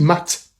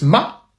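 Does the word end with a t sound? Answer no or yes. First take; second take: yes; no. First: The word ends with a clear t sound. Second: The word ends on the vowel, without t. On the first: This is the sign's usual reading. "qui normalement se dit mat" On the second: The t marks the feminine and is not read here. "dans ce cas-ci se prononce ma, puisque le T ne se prononce pas"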